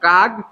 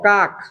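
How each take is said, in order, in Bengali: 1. শব্দটি g ধ্বনি দিয়ে শেষ হয়। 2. শব্দটি k ধ্বনি দিয়ে শেষ হয়। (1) "উচ্চারণ আপনাকে করতে হবে এভাবে কাক দিলা, কয়াকার গ" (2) "উচ্চারণ হওয়ার কথা কাক, কয়াকার ক"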